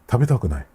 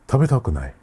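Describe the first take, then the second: The two takes are said the same way.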